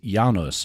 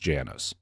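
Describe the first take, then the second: First: The name is pronounced the Polish way. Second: The name is pronounced the American way. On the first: "The Polish pronunciation of the family name is" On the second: "but the American pronunciation is"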